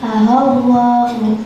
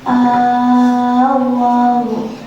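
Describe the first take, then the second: First: The second hamza is softened, not fully pronounced. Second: The second hamza becomes a long drawn vowel. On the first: "Jika tasil" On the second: "jika ibdal"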